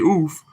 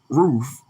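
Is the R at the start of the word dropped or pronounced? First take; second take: dropped; pronounced. First: The word starts without any R sound. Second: The word starts with a clear R sound. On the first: The speaker calls it wrong. "some people do say oof" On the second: The speaker calls it right. "I do say roof"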